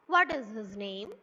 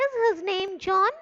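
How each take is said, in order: First: Lower-pitched question, dropping after "What"; falling intonation. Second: High, loud question rising on "John"; rising intonation. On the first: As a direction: bring pitch down from "What" towards "name". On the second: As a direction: keep pitch up and lift "John". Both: Shown as a demonstration. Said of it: "Falling, rising".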